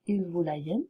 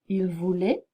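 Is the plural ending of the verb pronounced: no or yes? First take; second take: yes; no. First: The plural verb ending is pronounced aloud. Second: The plural verb ending is silent. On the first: The speaker calls it wrong. "Ne prononcez pas" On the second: The speaker calls it right. "elle ne se prononce pas du tout"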